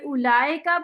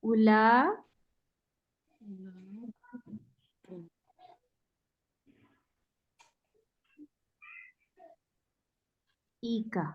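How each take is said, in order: First: The vowels flow together without a glottal stop. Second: The glottal stop is sounded as a separate break. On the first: The speaker calls it wrong. "उलाइका पढ़ेंगे तो ये रॉन्ग हो जाएगा" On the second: The speaker calls it right. "तो हमजा को अलग से साउंड करना है"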